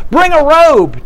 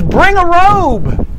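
First: Higher, quicker mock call; a lighter repeat of the father's order; father's command. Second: Slow, drawn out, much higher call; calling out to servants. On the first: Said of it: "And the father says". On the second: Acted. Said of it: "he yells to his servants".

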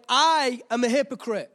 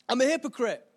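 First: I punched, a little louder; stress on I. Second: Said in the usual way. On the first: Real, not acted. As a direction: lean hard on I in I am a hypocrite. Stressed self accusation, then repeated.

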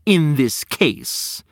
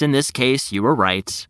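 First: "In this case" drawn out slowly, falling; slowly mock the words "In this case"; stress on in this case. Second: "in this case" said grudgingly with weight; stress on in this case. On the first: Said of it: "Why do you have to say". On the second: Acted. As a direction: lean on "in this case" reluctantly. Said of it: "Why do you have to say, "In this case"?".

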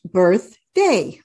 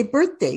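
First: "birthday" slow, with a gap between birth and day; split into syllables. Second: Said in the usual way. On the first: Shown as a demonstration. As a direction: give "birthday" two separate, drawn-out beats. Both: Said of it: "you have two syllables".

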